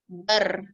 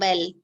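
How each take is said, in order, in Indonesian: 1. Suku kata ini diakhiri dengan r yang sedikit bergetar. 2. Suku kata ini diakhiri dengan bunyi l yang jelas. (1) "Dia terus bergetar sikit. Bar bukan bal" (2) "bukan bal"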